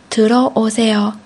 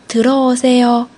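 The two takes are said the same way.

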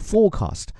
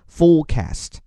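First: The word is said in a British accent. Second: The word is said in an American accent. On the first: "英国人呢叫做forecast" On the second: "美国人呢forecast"

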